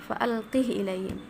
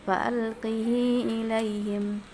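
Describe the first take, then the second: First: The h carries no vowel after it. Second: The h has a lengthened i vowel. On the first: "mensukunkan haknya" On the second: "mengkasrahkan haknya dengan silah, ya, dengan silah artinya dengan mad, bacanya panjang"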